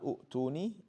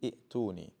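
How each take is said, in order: First: The first vowel is an oo sound. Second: The first vowel is an ee sound. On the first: The speaker calls it wrong. "Not u'tuni" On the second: The speaker calls it right. "you say i'tuni"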